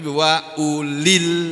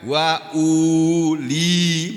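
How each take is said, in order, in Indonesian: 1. Frasa itu berakhir dengan l penyambung, dengan vokal pendek. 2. Frasa itu berakhir dengan vokal, terpisah dari kata berikutnya. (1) "Tapi wa ulil, linya ini juga dibaca pendek" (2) "bacanya bukan wa uli, bukan begitu"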